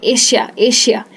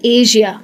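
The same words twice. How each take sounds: First: एशिया with a plain sh sound, like Eshia; wrong sh version. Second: एशिया with a voiced zh, like Ayzhia; correct zh version. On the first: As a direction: imitate the common Indian sh in एशिया. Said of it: "कई लोग श में कहते हैं". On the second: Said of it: "इसको कहना चाहिए". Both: Shown as a demonstration.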